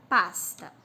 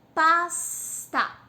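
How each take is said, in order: First: Said in the usual way. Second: "Pasta" broken loudly into "pas... ta"; syllable by syllable. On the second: Shown as a demonstration. Teacher counting syllables for pupils, "Pasta" split in two. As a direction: sound out "Pasta" in two separate beats, full final A. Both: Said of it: "tem duas sílabas".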